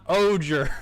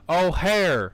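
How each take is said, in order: First: The middle consonant is a hard G sound. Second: The middle consonant is a soft H-like sound. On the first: The speaker calls it wrong. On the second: The speaker calls it right. "it is in fact"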